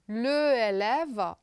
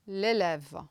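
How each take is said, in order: First: The article keeps its own vowel before the noun. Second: The article's vowel drops and merges with the noun. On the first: The speaker calls it wrong. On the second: The speaker calls it right.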